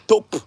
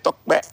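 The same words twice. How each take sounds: First: "Tope" with a plain p, no k; mispronounced name. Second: "Tokpe" with a joined kp sound; correct Yoruba pronunciation. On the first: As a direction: drop the k sound in "Tope". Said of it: "I could have said". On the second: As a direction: say "Tokpe" with k and p released together. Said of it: "You see the way I said". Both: Shown as a demonstration.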